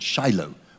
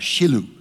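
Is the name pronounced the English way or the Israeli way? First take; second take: English; Israeli. First: The name is said with English pronunciation. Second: The name is said with Israeli pronunciation.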